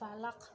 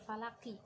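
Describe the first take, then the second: First: The word ends on a stopped final consonant. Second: The word ends with an added final vowel. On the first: The speaker calls it right. "karena dibaca waqaf maka menjadi dibaca mati" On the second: The speaker calls it wrong. "bukan falaki"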